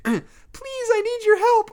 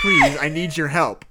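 First: Put-on very high, small girlish plea; small feminine voice. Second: Small feminine voice. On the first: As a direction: plead in a tiny girl's voice. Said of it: "a small feminine voice answered". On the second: Acted. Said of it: "a small feminine voice".

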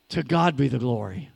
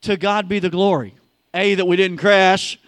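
First: Low hushed "To God be the glory"; reverent, lower. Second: Louder ringing declaration; louder proclaimed "To God be the glory". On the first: Reverent first take. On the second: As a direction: shout "To God be the glory" out to the congregation. Proclaimed after the crash joke. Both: Acted.

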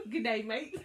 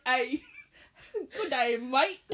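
First: Australian "Good day, mate" with a laugh; laughing through an Aussie "Good day, mate"; Australian accent. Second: Mock Aussie "Good day, mate", laughing; hammed-up Australian greeting, laughing; Australian accent. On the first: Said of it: "if you ever go to Australia". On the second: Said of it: "was that Australian?". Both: Shown as a demonstration.

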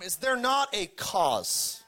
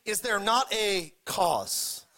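First: Drawn out, weight on not; Is there not a cause, slowly, with "not" leaned on hard; slow emphatic question. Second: Drawn out, weight on not; slow emphatic question. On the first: Preacher savoring the phrase, slow and emphatic. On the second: Preacher repeating the phrase, slow and weighty. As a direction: repeat it slowly with "not" hit firmly. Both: Shown as a demonstration. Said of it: "I love that phrase".

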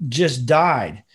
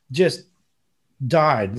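First: Said in the usual way. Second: "Just", a pause, then "died" falling hard; slow emphatic. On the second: Shown as a demonstration. Stressing to a friend that she truly died, with a pause. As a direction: split "Just" and "died" with a long pause for weight.

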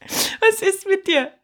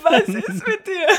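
First: Very slow and higher, with a laugh; laughing again in disbelief. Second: Higher and slow, through laughter; laughing question. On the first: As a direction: stretch the question out while laughing. Rit après la menace de Lukas. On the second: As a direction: laugh the words out in disbelief. Réagit en riant à la critique. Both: Real, not acted.

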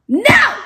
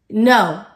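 First: Loud, high-pitched shout of no; shouted refusal. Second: Firm, loud refusal at normal pitch. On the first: Firmly refusing temptation, escalated. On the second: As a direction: say a firm, contained no. Firmly refusing temptation, first take. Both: Acted.

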